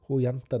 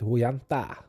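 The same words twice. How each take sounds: First: The second word ends in an 'e' vowel. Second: The second word ends in an 'ae' vowel. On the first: "Det var jo kjempebra sunnmørsdialekt" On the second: "Mens her vil jeg si at"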